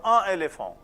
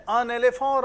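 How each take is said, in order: First: "un éléphant" with no N before the second word; without liaison. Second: "un éléphant" with N carried into the next word; higher, louder "un éléphant", joined by an N; with liaison. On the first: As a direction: say "un éléphant" unlinked, nasal vowel then "ay-lay-fon". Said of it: "then there will be no liaison". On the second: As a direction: say "un éléphant" linked, "un-nay-lay-fon". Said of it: "When there is a liaison". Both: Shown as a demonstration.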